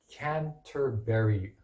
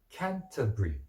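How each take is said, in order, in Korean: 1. 미국 억양으로 말했어요. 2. 영국 억양으로 말했어요. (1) "아마 미국 사람이면 Canterbury" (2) "영국 사람은 Canterbury"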